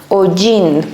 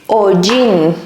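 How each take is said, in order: Both takes have the same delivery.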